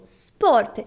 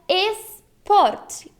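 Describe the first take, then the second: First: The word begins directly with the s sound. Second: The word begins with an added e vowel. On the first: The speaker calls it right. "Repita comigo" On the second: The speaker calls it wrong. "Não é esporte, como no português"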